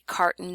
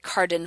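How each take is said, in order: First: The middle consonant is a glottal stop. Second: The middle consonant is a D-like flap. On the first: The speaker calls it right. "we get glottal stop um, occurring before n" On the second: The speaker calls it wrong. "it definitely does not sound like a D. We don't say carden"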